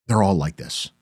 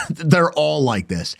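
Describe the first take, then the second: First: Said in the usual way. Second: Laughing. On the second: Real, not acted. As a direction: laugh through it, slow and mocking. Laughing mocking repeat.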